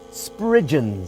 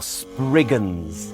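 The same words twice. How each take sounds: First: The word is said in an older pronunciation. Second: The word is said in a contemporary pronunciation.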